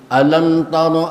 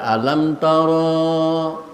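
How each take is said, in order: First: The vowel after the r is kept short. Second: The vowel after the r is drawn out long. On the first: The speaker calls it right. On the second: The speaker calls it wrong.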